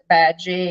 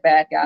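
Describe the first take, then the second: First: The second word is said with a soft 'gee' sound. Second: The second word is said with a hard 'guy' sound. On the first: This is how the characters in the film say the name. "they pronounce it bad G" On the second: This is what the spelling really reads as. "it's actually bad guy"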